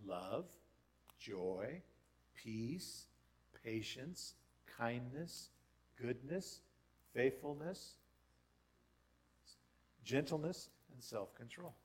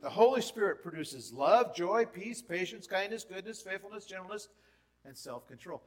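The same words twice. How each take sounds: First: Each fruit named slowly with a small lift; slow measured list. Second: Higher and louder, rattling off the fruits; excited rapid list. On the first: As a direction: lay the list out calmly, one word at a time. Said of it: "what are they?". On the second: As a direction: sweep through the list with rising enthusiasm. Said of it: "He produces this fruit". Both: Shown as a demonstration.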